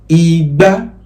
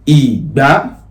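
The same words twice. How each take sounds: First: The pitch goes from mid to high. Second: The pitch goes from low to high. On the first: It means calabash. "that is re, mi, that's calabash" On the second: It means garden egg. "that is domi, that's garden egg"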